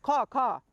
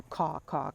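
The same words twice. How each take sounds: First: Higher, louder crow caw; harsh crow caw. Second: Said in the usual way. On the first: Retold or imitated. Crow woman scolding the shrugging girl, loud caw. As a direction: bark the caws like an angry crow. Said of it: "the woman said". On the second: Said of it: "the crow woman came around to".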